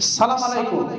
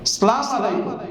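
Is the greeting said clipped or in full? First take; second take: clipped; clipped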